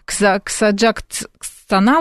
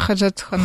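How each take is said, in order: First: The word begins with a 'ks' sound. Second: The word begins with a 'kh' sound. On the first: "она вроде должна читать как Ксаджактстана" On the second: "а она Ходжатхона"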